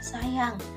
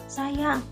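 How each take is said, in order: First: It sounds happy and affectionate. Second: It sounds angry and startled. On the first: The speaker is delighted by a gift. "ibu mengatakan sayang karena e, ibu mendapatkan hadiah karena rasa bahagia" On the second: The speaker is upset about a loss. "ibu mengatakan sayang karena marah dan kaget"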